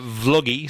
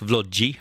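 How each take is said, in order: First: The name is said in a plain English way. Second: The name is said in an Italian way.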